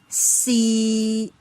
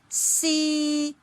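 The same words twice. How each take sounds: First: The pitch stays level in the middle. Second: The pitch stays level at the top. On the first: "it remains a flat level in the middle level" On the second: "the starting and ending point lie on the highest level"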